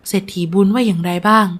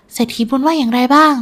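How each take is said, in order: First: Mildly eager father's question; excited. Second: Eager, higher-pitched daughter's question; excited. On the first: Father asking about the rich man's answer, mildly excited. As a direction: ask for news with restrained eagerness. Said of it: "นายวันถามด้วยความตื่นเต้น". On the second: Daughter asking about the rich man's answer, excited. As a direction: ask eagerly for news. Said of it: "ดารารายถามด้วยน้ำเสียงตื่นเต้น". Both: A narrator's reading.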